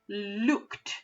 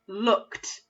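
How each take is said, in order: First: The vowel is a long oo, as in moon. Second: The vowel is a short uh, as in book. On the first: The speaker calls it wrong. "That doesn't sound right" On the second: The speaker calls it right. "So I know it's a uh sound"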